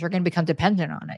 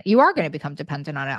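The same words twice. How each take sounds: First: Said in the usual way. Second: "are" pulled out full and hit hard instead of "You're"; "You are gonna" with a heavy hit on "are"; stress on ARE. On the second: Retold or imitated. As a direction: land on the word "are" like a warning. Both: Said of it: "Why I'd be like".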